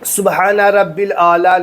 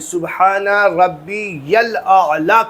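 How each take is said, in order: First: Rabbi runs straight into 'l' without 'ya'. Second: Rabbi is followed by a clear 'ya' sound. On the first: The speaker calls it wrong. "नहीं" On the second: The speaker calls it right. "कहना है"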